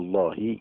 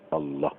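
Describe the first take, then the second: First: The final h is followed by an i vowel. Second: The final h ends with no vowel after it. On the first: The speaker calls it wrong. "بالكسره الله ما يصحش" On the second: The speaker calls it right. "الهاء عليها سكون"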